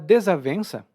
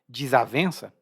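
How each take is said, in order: First: Every syllable is pronounced fully and carefully. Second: The syllables are reduced in a relaxed pronunciation.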